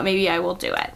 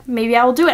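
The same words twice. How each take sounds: First: Quiet musing. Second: "do" lifted, now sure of it; talking herself into reading it, now decided. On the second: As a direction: say it again with resolve, rising on "do". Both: Real, not acted. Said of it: "And you know what?".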